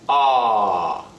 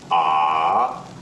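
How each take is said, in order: First: The pitch starts high and drops sharply. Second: The pitch dips down, then rises slightly. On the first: "start your pitch a little bit higher and then let it drop" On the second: "dip your pitch and then quickly raise it up a bit"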